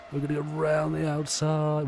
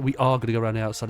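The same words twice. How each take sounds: First: Excited overtaking call. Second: "are" punched loud, then a quick run-on; stress on ARE. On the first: Racer calling his move round the outside, excited. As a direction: call the move in a high, sustained voice. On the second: Racer confirming the overtake is on, "are" stressed. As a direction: hit the word "are" hard, confirming it, then hurry on. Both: Real, not acted.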